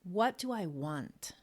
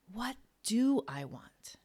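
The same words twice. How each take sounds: First: "What" leaned on, the rest slow and even; slow, with the weight on "What"; stress on what. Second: Whispered, with "do" lifted higher and stressed; slow whisper that leans on "do"; hushed and slow, the stress moved onto "do". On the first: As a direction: ask it slowly and land hard on "What". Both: Shown as a demonstration. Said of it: "with the emphasis on different words".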